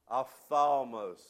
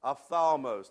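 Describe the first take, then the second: First: Ophthalmos drawn out slowly, syllable by syllable; slow Greek word. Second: Ophthalmos said crisply and louder at normal pace; Greek word, pronounced. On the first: Teaching the congregation a Greek word, slowly. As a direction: sound out ophthalmos for them to repeat. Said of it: "You wanna say it with me?". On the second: Praising the congregation after their repetition, crisp. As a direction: say ophthalmos proudly once more. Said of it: "you're Greek speakers already". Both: Shown as a demonstration.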